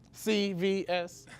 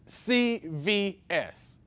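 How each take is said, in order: First: It is said quickly at normal volume. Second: It is said slowly and more loudly.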